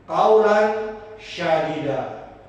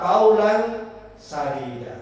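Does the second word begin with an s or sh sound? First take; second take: sh; s. First: The second word begins with an sh sound. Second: The second word begins with an s sound. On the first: The words mean harsh, rough speech. The speaker calls it wrong. "Sya itu shin. Itu salah" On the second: The words mean good, upright speech. The speaker calls it right. "Yang benar itu adalah qaulan sadida. Sin"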